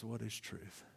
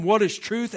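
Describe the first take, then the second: First: Soft, low, even reading of the question; quiet question. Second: Loud, high sarcastic question with a rising end; sarcastic Pilate. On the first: Preacher reads Pilate's question to the church, soft and low. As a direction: let the question drop quietly. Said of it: "and he says". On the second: Pilate scoffs at Jesus before walking out, loud sarcastic question. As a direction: throw the question away with scorn. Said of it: "it's clear that it's sarcasm". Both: Retold or imitated.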